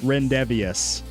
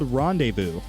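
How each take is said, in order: First: The word ends with a 'vius' sound. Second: The word ends with a 'voo' sound. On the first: The speaker calls it wrong. "I'm pretty sure that's how I pronounced it initially" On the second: The speaker calls it right. "it is called Rendezvous"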